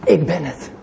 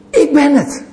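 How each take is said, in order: First: Said in the usual way. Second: Higher, ringing declaration; voice of Jesus proclaiming. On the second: Acted. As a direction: announce yourself with divine authority. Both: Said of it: "wat wij niet kunnen zeggen. En dat is".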